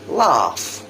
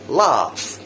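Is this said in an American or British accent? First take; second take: British; British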